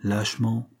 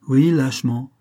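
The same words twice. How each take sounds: First: Said in the usual way. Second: LÂCHEMENT repeated louder, with force after a firm OUI; louder, insistent admission of LÂCHEMENT; emphatic self-reproach. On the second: A narrator's reading. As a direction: hit OUI hard and confirm LÂCHEMENT forcefully. Confession, word repeated with force.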